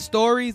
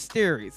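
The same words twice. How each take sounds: First: The first vowel sounds like 'or'. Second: The first vowel sounds like 'eh'. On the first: The speaker calls it wrong. "it's not stories" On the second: The speaker calls it right. "Like S T E R I E S"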